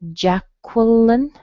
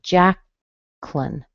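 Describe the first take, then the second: First: The middle syllable has a W sound: kwuh. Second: The middle vowel is dropped, leaving two syllables. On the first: "Qua with a schwa" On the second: "it would become a two-syllable word"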